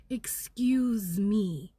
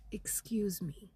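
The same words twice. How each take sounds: First: Sassy drawn-out excuse me. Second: Whispered excuse me. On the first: Telling the viewers her guidance, slow and defiant. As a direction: draw out "Excuse me" with attitude. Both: Shown as a demonstration. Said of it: "has been the guidance".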